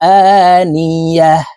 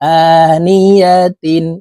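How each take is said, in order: First: The word ends with a still h sound. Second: The word ends with a full tin sound. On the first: The reader stops at this word. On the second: The reading continues without stopping.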